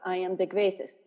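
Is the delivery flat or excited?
flat. It is said flatly, without feeling.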